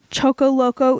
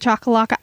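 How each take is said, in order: First: The final syllable sounds like 'co'. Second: The final syllable sounds like 'ka'. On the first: "the most correct way to say it" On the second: "I might say Chocolaka"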